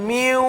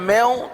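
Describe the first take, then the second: First: The vowel is a tight 'yu' glide. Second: The vowel is an open 'ai' sound. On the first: The speaker calls it right. "मैऊ नहीं बल्कि म्यू" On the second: The speaker calls it wrong. "अगर मैऊ हो गया मैऊ तो ये मजहूल हो जाएगा"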